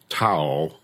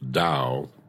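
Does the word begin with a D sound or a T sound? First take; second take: T; D. First: The word begins with a T sound. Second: The word begins with a D sound. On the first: The speaker calls it wrong. "Looks like Tao" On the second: The speaker calls it right. "pronounced Tao"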